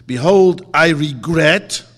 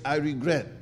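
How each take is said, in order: First: Proclaimed confession. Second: Said in the usual way. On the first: Shown as a demonstration. A teacher showing his class the confession, declaimed loud and slow. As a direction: declare it loudly like a solemn vow. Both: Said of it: "You have to say".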